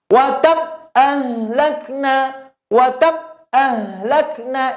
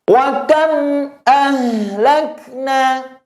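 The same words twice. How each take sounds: First: High chant with KAM stopped dead, no hum left; wrong take, WA KAM shut with no trace of M sound; mim cut off. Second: High, slow chant, a little hum left on the M of KAM; slight lingering mim. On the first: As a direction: chop off the M of KAM abruptly. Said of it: "Itu kurang tepat". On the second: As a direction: let the M of KAM sound briefly before ahlakna. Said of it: "harus ada sedikit sisa suara di mimnya". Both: Shown as a demonstration.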